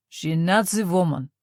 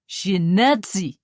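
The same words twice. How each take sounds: First: Russian officer in halting German, NAZI stressed; mangled German through a thick Russian accent; a Russian soldier sneering at the priest in broken German. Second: Very slow, louder, hammering NAZI; Russian officer pronouncing judgment on the old woman; pronounced Russian accent. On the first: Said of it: "he said in broken German". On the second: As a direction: drag it out as a final verdict. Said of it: "his accent very pronounced". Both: A narrator's reading.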